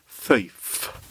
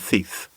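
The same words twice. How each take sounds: First: The final F sound is clearly pronounced. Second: The final F sound is dropped or unclear. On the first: The speaker calls it right. "I should say thief, she says" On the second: The speaker calls it wrong. "I don't say the F on the end of thief"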